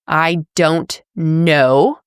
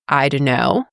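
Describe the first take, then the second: First: Every word is pronounced fully and clearly. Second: The words are reduced and run together.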